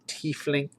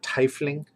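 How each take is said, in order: First: The first vowel is a long ee sound. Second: The first vowel is an eye sound. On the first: The speaker calls it right. "I'm of the I as an E in German" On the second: The speaker calls it wrong. "It's not tiefling"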